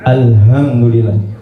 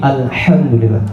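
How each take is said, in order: First: The middle h is a light breathy h. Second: The middle h is a harsh throat h. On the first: All death belongs to God. The speaker calls it wrong. "jangan alhamdulillah" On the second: All praise belongs to God. The speaker calls it right. "tapi alhamdulillah"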